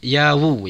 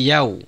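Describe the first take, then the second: First: The w sound is followed by an extra u vowel. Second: The w sound closes the syllable with no vowel. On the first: The speaker calls it wrong. "bukan waw dhammah sehingga menjadi yawumid" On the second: The speaker calls it right. "bukan yawu tapi yau"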